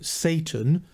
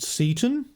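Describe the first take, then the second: First: The name sounds exactly like the word Satan. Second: The name sounds unlike the word Satan. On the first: The speaker calls it wrong. "rather than Satan" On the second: The speaker calls it right. "I prefer that pronunciation of his name"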